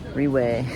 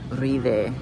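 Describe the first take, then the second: First: The middle consonant sounds like a w. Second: The middle consonant sounds like a v. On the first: The speaker calls it wrong. "I was calling it Riwe earlier" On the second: The speaker calls it right. "but apparently it's Rive"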